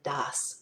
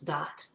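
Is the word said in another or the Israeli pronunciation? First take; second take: another; Israeli. First: It is said in a non-Israeli pronunciation. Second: It is said in the Israeli pronunciation. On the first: "I introduced the word das" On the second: "If you're in Israel, it's dat"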